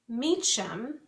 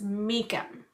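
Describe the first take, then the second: First: The middle consonant sounds like 'ch'. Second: The middle consonant sounds like 'k'. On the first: The speaker calls it wrong. "I've been saying um, the author's name wrong" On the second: The speaker calls it right. "it's pronounced Meekum, I think"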